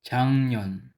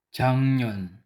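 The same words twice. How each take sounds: The two takes are said the same way.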